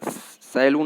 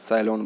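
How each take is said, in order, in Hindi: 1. आखिरी अक्षर 'loon' जैसा सुनाई देता है। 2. आखिरी अक्षर 'lon' जैसा सुनाई देता है। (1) "ये तरीका उच्चारण गलत है" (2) "सैलॉन बोलना है"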